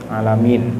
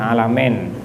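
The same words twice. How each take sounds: First: The last vowel sounds like ee. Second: The last vowel sounds like eh. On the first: The speaker calls it right. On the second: The speaker calls it wrong.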